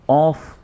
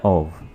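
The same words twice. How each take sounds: First: The word ends with an f sound. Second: The word ends with a v sound. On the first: The speaker calls it wrong. "ऐसे नहीं पढ़ेंगे" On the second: The speaker calls it right. "वाव के साथ है"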